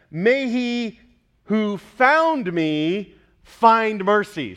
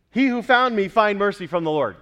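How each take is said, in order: First: "found" and "find" drawn out very slow and loud; stressing the word play. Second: Said in the usual way. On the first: Shown as a demonstration. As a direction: lean hard on found and find. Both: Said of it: "See the word play?".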